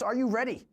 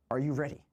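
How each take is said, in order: First: High, far-off arena announcer call; hype announcer. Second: Said in the usual way. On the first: Acted. Host hyping stream viewers with a higher announcer call. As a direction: pump up the crowd like a showman.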